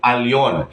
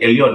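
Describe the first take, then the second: First: The word begins with an 'ah' sound. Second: The word begins with an 'eh' sound. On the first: The speaker calls it right. "ang tamang pagbigkas ay al" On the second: The speaker calls it wrong. "Nasanay na po ang marami na akala is ang pagbigkas nito ay L, ... Mali po"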